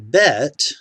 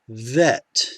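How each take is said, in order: First: The first sound fully blocks the air. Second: The first sound lets air flow continuously. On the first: "Same letter" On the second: "you don't block the air off in order to pronounce this softened sound"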